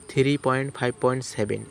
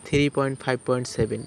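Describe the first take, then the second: No difference in how they are said.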